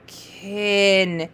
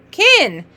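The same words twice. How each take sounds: First: Kin drawn out smoothly with held vowel and n; slid word. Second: Higher, louder, said whole; quick bright reveal. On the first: Teacher answering softly for a reader, Kin drawn out. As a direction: stretch Kin slowly. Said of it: "go ahead and slide". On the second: Teacher confirming a reader's word, higher and excited. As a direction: announce the answer briskly. Announces the word just read. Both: Shown as a demonstration.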